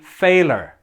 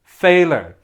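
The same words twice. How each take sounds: No difference in how they are said.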